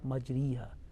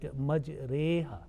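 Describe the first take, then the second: First: The vowel after r is a full i. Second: The vowel after r leans toward e. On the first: The speaker calls it wrong. "not majriha" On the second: The speaker calls it right. "pronounced like majreha"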